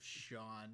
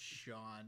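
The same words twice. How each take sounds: First: The vowel is an open aw sound. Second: The same.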